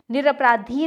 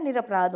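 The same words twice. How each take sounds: First: निरपराधी with long final "ee"; incorrect form. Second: निरपराध ending on "dh", no vowel; correct form. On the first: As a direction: say निरपराधी as "niraparaadhee". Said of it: "नहीं होता है". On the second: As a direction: say निरपराध as "niraparaadh". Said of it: "होता है". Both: Shown as a demonstration.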